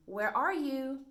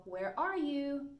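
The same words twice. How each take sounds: First: Higher, louder calling question. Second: Slow call. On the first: Teacher showing a memory trick, calling where are you. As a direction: call out as if searching. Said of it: "if you say". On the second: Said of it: "All right, so". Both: Shown as a demonstration.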